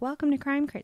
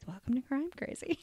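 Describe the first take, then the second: First: It is said at a normal, full volume. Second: It is said in a very quiet voice.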